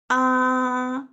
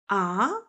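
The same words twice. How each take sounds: First: It is a plain open-mouthed ah sound. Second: It sounds surprised, like asking what. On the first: "open mouth sound" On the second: "Surprising sound"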